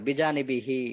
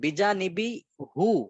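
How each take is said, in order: First: The final syllable ends with an 'i' vowel. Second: The final syllable ends with a 'u' vowel. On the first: This form is easier to say. "জের দিয়ে পড়ে। বিজানিবি হি সহজ।" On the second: This form is harder to say. "এই জেরের পরে পেশ পড়া এটা একটু কঠিন।"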